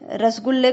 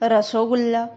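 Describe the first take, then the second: First: It has the standard Hindi pronunciation. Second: It has a Bengali-style pronunciation.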